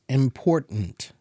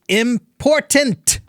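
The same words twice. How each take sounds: First: The first T is pronounced very lightly. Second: The first T is pronounced strongly and clearly. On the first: This is ordinary everyday usage. "say it kind of like this" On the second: The speaker is angry. "if I'm angry, then I pronounce those T's very strongly"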